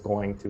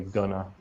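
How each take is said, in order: First: Both words are said fully and separately. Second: The words are blended into one reduced word. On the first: The speaker calls it wrong. "no American says going to" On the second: The speaker calls it right. "We say gonna"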